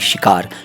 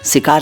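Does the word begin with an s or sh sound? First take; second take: sh; s. First: The word begins with an sh sound. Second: The word begins with a plain s sound. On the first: The speaker calls it right. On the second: The speaker calls it wrong.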